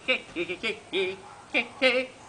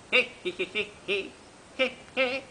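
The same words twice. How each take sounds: First: Short, choppy pig cries pushed a little harder; insistent imitated pig shouts, rising at the end; louder piglet squeals. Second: Short, choppy piglet cries; imitated pig shouts, rising at the end; squealing piglets. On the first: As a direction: squeal like piglets trying to be heard. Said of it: "más fuerte le gritaron". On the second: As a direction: squeal like a bunch of little pigs. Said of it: "y todos gritaron". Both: A narrator's reading.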